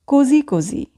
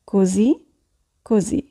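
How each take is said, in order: First: Said in the usual way. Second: "così" and "così" set apart by a long pause; slow, separated repetition; word by word. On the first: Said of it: "teacher models phrase". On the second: Shown as a demonstration. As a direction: say "così così" one word at a time. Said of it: "teacher repeats word by word".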